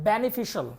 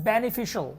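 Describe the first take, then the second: Both takes have the same delivery.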